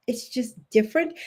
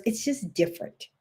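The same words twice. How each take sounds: First: "different" lifted, rising end; stress on different. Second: "just" pressed firmly, ending falls; stress on just. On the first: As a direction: let "different" rise at the end. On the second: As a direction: lean on "just", falling. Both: Shown as a demonstration.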